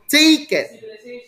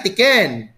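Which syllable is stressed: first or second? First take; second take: first; second. First: The stress is on the first syllable. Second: The stress is on the second syllable. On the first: The speaker calls it right. "You go with taken" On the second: The speaker calls it wrong. "You don't say tiken"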